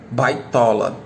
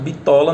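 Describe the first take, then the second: First: The first vowel sounds like 'eye'. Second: The first vowel sounds like 'ee'. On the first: It imitates a foreign speaker's pronunciation. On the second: It is the ordinary local pronunciation.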